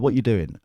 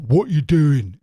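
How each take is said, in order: First: Said in the usual way. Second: Loud, higher-pitched caricature of a butch woman; butch lesbian impression. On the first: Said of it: "it didn't sound like that at all". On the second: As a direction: belt it out in a mock butch voice. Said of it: "because she's lesbian and butch".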